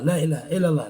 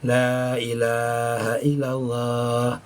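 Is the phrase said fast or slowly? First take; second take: fast; slow. First: The phrase is said quickly. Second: The phrase is said slowly. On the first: It is recited without tasting its sweetness. The speaker calls it wrong. "Cepat, tapi kada merasakan lezat" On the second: It is felt flowing through the whole body. The speaker calls it right. "Pelan aja"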